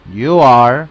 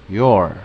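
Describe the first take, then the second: First: "you are" slow and loud, fully separated. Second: "your" lower, one falling syllable; short form. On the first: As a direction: stretch out "you are" clearly. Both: Shown as a demonstration. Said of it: "quiero asegurarme que lo escuchen correctamente".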